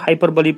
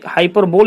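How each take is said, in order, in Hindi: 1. यह शब्द 'ee' ध्वनि के साथ खत्म होता है। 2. यह शब्द बिना अंतिम स्वर ध्वनि के खत्म होता है। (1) "इसको हाइपरबोली पढ़ेंगे" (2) "ये हाइपरबोल इसको नहीं पढ़ेंगे"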